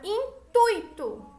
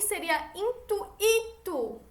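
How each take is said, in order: First: The stress falls on the syllable tui. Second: The stress falls on the vowel i alone. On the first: The speaker calls it right. "Olha como eu pronuncio essa palavra" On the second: The speaker calls it wrong. "Se fosse só o i"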